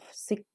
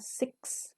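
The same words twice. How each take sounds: First: The word ends with only a k sound. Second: The word ends with a clear ks sound. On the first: The speaker calls it wrong. "karena itu bukan huruf K, jadi tidak dibaca" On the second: The speaker calls it right. "bacanya tetap X belakangnya ya"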